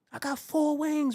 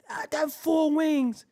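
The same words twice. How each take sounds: First: Four stretched and lifted, slow; stress on four. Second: I got four wings shouted high and slow; shouted insistence. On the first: Insisting he got only four wings, stretching four. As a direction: lean hard on four. Insisting on his wing count. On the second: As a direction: bellow four, drawn out. Repeating louder, shouting. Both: Acted.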